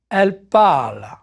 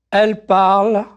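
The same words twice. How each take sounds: First: Parle carries the weight with a falling close; stress on parle. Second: Elle leaned on, parle lighter; stress on elle. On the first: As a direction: keep Elle light, land on parle. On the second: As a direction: hit the word Elle, let parle fall away. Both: Shown as a demonstration. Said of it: "repeat-after-me drill".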